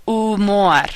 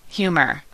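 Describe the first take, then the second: First: Spanish "Humor", as "oo-MOR"; Spanish, silent H. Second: Said in the usual way. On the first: Shown as a demonstration. Teacher modelling a cognate, Spanish "Humor" with silent H. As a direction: drop the H in "Humor", stress the last syllable. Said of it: "H in Spanish is always silent". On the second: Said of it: "similar and mean the same thing".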